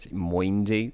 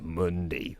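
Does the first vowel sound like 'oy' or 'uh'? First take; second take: oy; uh. First: The first vowel sounds like 'oy'. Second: The first vowel sounds like 'uh'. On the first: The speaker calls it wrong. "There's no way in a million years I would have pronounced it like that" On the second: The speaker calls it right. "That's Mundi"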